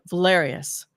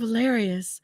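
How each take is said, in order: First: The voice is pitched much deeper. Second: The voice is pitched higher and sweeter. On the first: She is showing her true self. "Suddenly her voice is much deeper" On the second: She is putting on a sweet, pretty persona. "her voice is a little higher"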